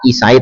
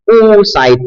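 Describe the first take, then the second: First: The word begins with a vowel other than 'oo'. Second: The word begins with an 'oo' (u) vowel. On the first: The speaker calls it wrong. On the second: The speaker calls it right. "hamzahnya didomah"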